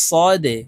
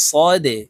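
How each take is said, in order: Both takes have the same delivery.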